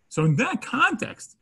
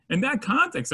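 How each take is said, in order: First: "in that context" slow and raised, each word leaned on; emphatic repeat. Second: Said in the usual way. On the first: Shown as a demonstration. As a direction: stretch out "in that context" high and deliberate.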